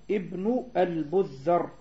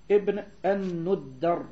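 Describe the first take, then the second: First: "البذر" said slowly with ba and dhal; misread name. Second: "الندر" slowly, nun with damma, doubled hard d; corrected name. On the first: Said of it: "قال بالباء الموحدة والذال المعجمة". (نطق "البذر" بالباء والذال المعجمة بتأنٍّ) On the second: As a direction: sound out "الندر" with nu and a stressed double d. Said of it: "وإنما هو بالنون المضمومة". (نطق "الندر" بنون مضمومة ودال مشددة) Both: Shown as a demonstration.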